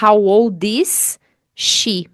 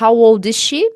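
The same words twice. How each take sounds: First: The s sounds of is and she are separate. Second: The s sound of is and she merges once. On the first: The speaker calls it wrong. "Você não precisa falar" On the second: The speaker calls it right. "você vai falar uma vez só"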